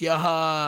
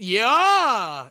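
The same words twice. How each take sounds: First: It is said flat, with little inflection. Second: It is said lively, with more inflection.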